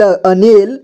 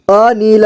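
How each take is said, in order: First: Said in the usual way. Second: अनिल as अ-नि-ल; syllable by syllable. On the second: Shown as a demonstration. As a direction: sound out each letter of अनिल. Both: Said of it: "एक ही बार में पढ़ेंगे".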